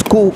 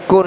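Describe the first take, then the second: First: "ku" open, without final n; correct ending. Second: "kun" with the final n sounded; wrong ending. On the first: Teacher gives the required ending, "ku" with n dropped. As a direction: end "ku" on the vowel u, no n. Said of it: "harus ku". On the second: Teacher shows the forbidden ending, "kun" with n. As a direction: close "kun" on an audible n. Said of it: "tidak boleh dibaca kun". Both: Shown as a demonstration.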